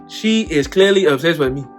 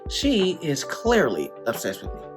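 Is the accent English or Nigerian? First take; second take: Nigerian; English. First: It is said in a Nigerian accent. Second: It is said in an English accent.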